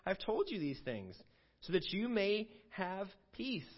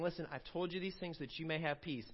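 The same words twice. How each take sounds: First: Scripture reading. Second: Said in the usual way. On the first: Shown as a demonstration. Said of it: "He says in verse thirty-three". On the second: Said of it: "He starts off by saying".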